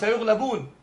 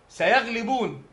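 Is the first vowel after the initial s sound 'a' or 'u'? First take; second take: u; a. First: The first syllable has a 'u' vowel. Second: The first syllable has an 'a' vowel. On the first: The speaker calls it wrong. "ما قال سيغلبون" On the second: The speaker calls it right. "على فتح الياء في قوله سيغلبون"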